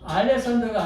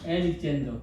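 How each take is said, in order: First: It begins with 'ah-lek' and ends 'san-der'. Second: It begins with 'eh-lik' and ends 'zen-der'. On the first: The speaker calls it wrong. "알렉산더가 아니고" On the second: The speaker calls it right. "엘릭젠더. 발음을 정확하게"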